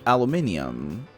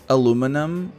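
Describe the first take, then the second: First: It is said with a non-American pronunciation. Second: It is said with an American pronunciation. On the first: The speaker calls it right. "like it's a aluminium" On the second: The speaker calls it wrong. "sometimes American people like don't like to pronounce the words as they are"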